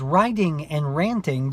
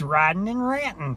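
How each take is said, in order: First: The words end with a full -ing sound. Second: The words end with a clipped -in' sound. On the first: The speaker calls it wrong. "just doesn't sound the same" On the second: The speaker calls it right. "R I D apostrophe N"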